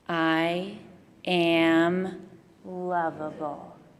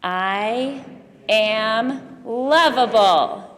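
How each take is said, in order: First: It is said plainly, without extra energy. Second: It is said with gusto and energy.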